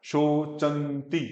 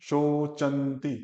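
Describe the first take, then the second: Both takes have the same delivery.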